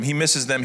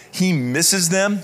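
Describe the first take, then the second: First: Said in the usual way. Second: Slow, higher, louder, lingering on He misses them; tender emphasis. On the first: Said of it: "He's thankful for them". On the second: Shown as a demonstration. Pastor stressing Paul's longing for his church, tender and slow. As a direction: let He misses them ache with fondness. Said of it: "He's thankful for them. He misses them".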